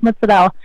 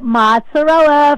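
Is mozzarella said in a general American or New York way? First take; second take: New York; general American. First: It is said in a New York way. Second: It is said in a general American way. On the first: "but where I come from, it's mozzarella" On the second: "I'll call it mozzarella for everybody"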